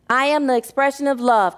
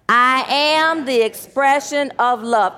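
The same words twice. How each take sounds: First: The words 'I am' get no special emphasis. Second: The words 'I am' are strongly emphasized.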